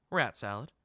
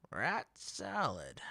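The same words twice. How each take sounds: First: Said in the usual way. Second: Savoring repeat. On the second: Acted. Merchant repeats band name.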